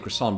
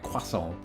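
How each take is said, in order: First: The word is said with an Americanized pronunciation. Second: The word is said with a French pronunciation. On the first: "I will say croissant" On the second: "go full French with it"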